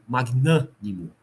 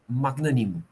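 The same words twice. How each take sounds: First: The stress is on the third-to-last syllable. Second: The stress is on the second-to-last syllable. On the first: "Se ela for proparoxítona" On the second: "Se ela for paroxítona"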